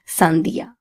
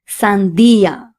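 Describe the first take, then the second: First: The stress does not fall on the i. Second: The stress falls on the i syllable. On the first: The speaker calls it wrong. "and not sandia" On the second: The speaker calls it right. "we have to stress on this letter. So we need to say sandia"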